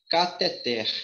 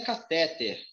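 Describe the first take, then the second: First: "cateter" slowly, as ca-te-TER; stress on final TER. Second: "catéter" said as ca-TÉ-ter; wrong stress on TÉ. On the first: Teacher correcting health workers, final TER stressed in "cateter". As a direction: land hard on the last syllable of "cateter". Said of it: "e sim". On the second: Teacher showing health workers the mistake, TÉ stressed in "catéter". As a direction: hit the middle syllable of "catéter". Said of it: "A pronúncia aqui não é". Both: Shown as a demonstration.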